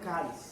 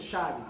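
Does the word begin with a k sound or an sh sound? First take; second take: k sound; sh sound. First: The word begins with a k sound. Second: The word begins with an sh sound. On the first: The speaker calls it right. "a pronúncia certa no grego é caris" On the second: The speaker calls it wrong. "vai ler como a gente fala no português"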